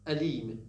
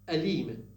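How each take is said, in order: The two takes are said the same way.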